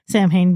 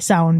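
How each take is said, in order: First: It is said as two words, 'Sam Hain'. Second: It is not said as 'Sam Hain'. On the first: This is the popular Halloween pronunciation. "being the Halloween pronunciation of it" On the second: This is the proper traditional pronunciation. "being the correct"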